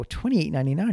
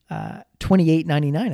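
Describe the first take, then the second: First: Twenty-eight ninety-nine repeated as a rising, disbelieving question; mild mock surprise at the price; surprised echo. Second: Said in the usual way. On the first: Shocked at the price rise. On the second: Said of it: "I go, "Twenty-eight ninety-nine?".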